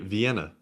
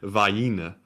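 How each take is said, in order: First: It is said with the general pronunciation. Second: It is said with a Georgia pronunciation. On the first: "when from anywhere else, you say Vienna" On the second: "when you're from Georgia, you say Vienna"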